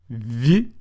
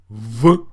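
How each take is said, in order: First: The consonant is pronounced soft, palatalized. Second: The consonant is pronounced hard, not palatalized. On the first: "pronounced softly, like this" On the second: "versus a hard pronunciation"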